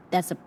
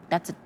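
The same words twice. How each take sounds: The two takes are said the same way.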